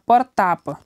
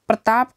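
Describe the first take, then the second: First: An extra vowel separates the first two consonants. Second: The first two consonants are joined as a cluster. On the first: The speaker calls it wrong. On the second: The speaker calls it right.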